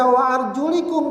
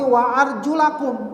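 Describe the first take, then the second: First: The vowel after the l is i. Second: The vowel after the l is a. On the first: It follows the case of the word before. The speaker calls it wrong. "tidak dibaca wa arjulikum" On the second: The feet are washed like the face and hands. The speaker calls it right. "tapi wa arjulakum"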